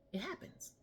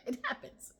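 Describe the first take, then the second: First: Said in the usual way. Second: It happens breathed out through a laugh. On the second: Real, not acted.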